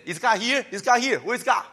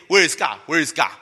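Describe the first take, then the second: First: Higher, whiny demanding question; mock complaint. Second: Mock complaint. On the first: Preacher mimics grumbling Israelites, whiny mock complaint. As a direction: sulk at God like a spoiled child. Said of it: "they always say". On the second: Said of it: "but you still say".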